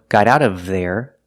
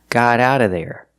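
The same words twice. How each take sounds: First: The v sound in 'of' is clearly pronounced. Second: The words blend together and the v is dropped. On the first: "You can pronounce the v" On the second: "We don't say out of, we say ara"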